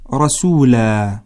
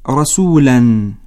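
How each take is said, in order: First: The word ends with a long aa sound. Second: The word ends with an -an sound. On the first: The reading stops on this word. "وتقرأ عند الوقف رسولا" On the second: The reading continues into the next word. "هكذا تقرأ عند الوصل"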